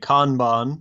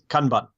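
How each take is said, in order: First: It is said with a British pronunciation. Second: It is said in a clipped, staccato Japanese way. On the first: "the rest of the world, I think, taking their lead from British English, would say" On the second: "the proper Japanese pronunciation, I think, is ... very uh, staccato"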